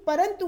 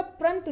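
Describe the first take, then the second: First: Said in the usual way. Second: परंतु as prantu; wrong pronunciation. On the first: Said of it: "परंतु होता". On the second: Shown as a demonstration. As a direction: run p and r together in परंतु. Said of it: "परंतु नहीं होता है".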